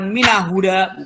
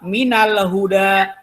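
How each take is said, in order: First: No l sound is pronounced before huda. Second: An l sound is pronounced before huda. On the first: The speaker calls it wrong. "bukan mina huda" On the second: The speaker calls it right. "yang kedua minal huda"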